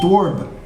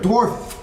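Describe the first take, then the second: First: The final f sound is dropped. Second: The final f sound is clearly pronounced. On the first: The speaker calls it wrong. "Otherwise they think it's dwarf" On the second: The speaker calls it right. "you've got to enunciate the word dwarf. Get the F out there"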